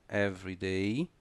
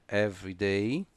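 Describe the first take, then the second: The two takes are said the same way.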